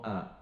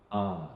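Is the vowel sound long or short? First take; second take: short; long. First: The vowel is said short. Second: The vowel is drawn out long. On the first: "we pronounce as a" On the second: "we will elongate the sound from a become ah"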